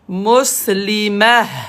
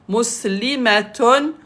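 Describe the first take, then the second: First: The word ends with a stopped '-ah' sound. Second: The word ends with a full '-atun' ending.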